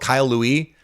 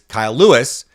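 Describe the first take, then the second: First: The surname is said with a French-style pronunciation. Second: The surname is said with a plain English pronunciation. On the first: The speaker calls it wrong. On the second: The speaker calls it right.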